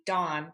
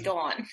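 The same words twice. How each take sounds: First: The name is said in a standard American accent. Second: The name is said in a New Jersey accent. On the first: This is how most people would say it. "I guess it'd be Dawn" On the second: This is how the family says it. "we all say"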